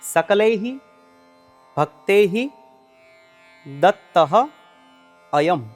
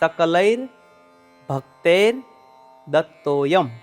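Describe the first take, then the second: First: The four words are said separately, unjoined. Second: The words are joined into one linked phrase. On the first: "જેમાં ચાર છૂટા છૂટા શબ્દો છે" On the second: "તેનું ઉચ્ચારણ આ પ્રમાણે કરવાનું છે"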